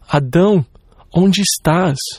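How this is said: The voice is sobbing and grieving. The speaker grieves over a wayward child. The speaker calls it right. "o soluçar de um pai com o coração partido... era esse o tom de voz"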